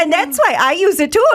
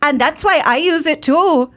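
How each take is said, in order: First: Higher, hammier Irish lilt; Irish accent. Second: Irish lilt, a bit higher; Irish accent. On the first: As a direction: play up the Irish brogue. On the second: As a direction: ad line in a light Irish brogue. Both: Shown as a demonstration. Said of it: "Let's hear it, [name]".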